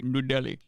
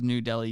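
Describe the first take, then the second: First: It is said with a put-on Indian accent. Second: It is said in a plain, unaccented way. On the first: "people don't do the Indian accent for Indian towns" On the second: "If someone says"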